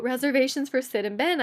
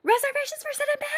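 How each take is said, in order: First: Said in the usual way. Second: Very high, rapid squealed announcement; shrieky mock holler, stretched at the end; calling out. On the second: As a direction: page your friends in a silly high squeal. Re-enacts calling out for friends.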